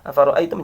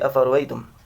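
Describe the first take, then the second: First: The second hamzah is pronounced fully. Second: The second hamzah is softened and eased.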